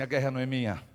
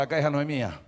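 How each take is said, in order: First: Said in the usual way. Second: Louder call. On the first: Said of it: "Dá um grito aí". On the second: Shown as a demonstration. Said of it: "Fala mais alto".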